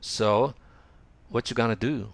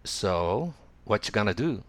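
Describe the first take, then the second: The two takes are said the same way.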